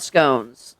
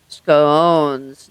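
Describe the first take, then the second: First: The vowel does not rhyme with bones. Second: The vowel rhymes with the word bones. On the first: This is the pronunciation they had been using. The speaker calls it wrong. "not scones, like we've been saying" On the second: This is the pronunciation used in educated circles. The speaker calls it right. "scones rhythms with bones like scones"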